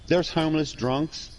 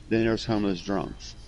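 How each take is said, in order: First: Put-on slow, high "there's homeless drunks" with a rising end; contrastive rise. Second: Put-on "then there's homeless drunks" at usual pitch, falling; contrastive fall. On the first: Explaining two kinds to a friend, contrastive rise on "there's homeless drunks". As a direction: set up the first kind, "there's homeless drunks" left hanging high. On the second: Explaining the second kind to a friend, contrastive fall on "then there's homeless drunks". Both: Shown as a demonstration.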